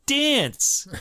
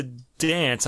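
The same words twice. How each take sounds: First: "Dance!" said again, high and exclaimed; corrected pronunciation. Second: "dance" with a nasal New York "a"; New York accent. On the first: Shown as a demonstration. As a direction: redo "Dance!" with a clean, unnasal "a". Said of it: "Did I say that right?". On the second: Real, not acted. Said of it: "N-, my New York accent?".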